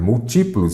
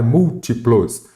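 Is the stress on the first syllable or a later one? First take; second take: later; first. First: The stress falls on a later syllable. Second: The stress falls on the first syllable. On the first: The speaker calls it wrong. "Não é múltiplos" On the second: The speaker calls it right. "eu falo é múltiplos ... a antepenúltima sílaba é acentuada"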